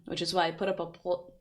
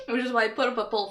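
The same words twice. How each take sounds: First: Said in the usual way. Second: Laughing. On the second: Real, not acted. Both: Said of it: "I'm sorry".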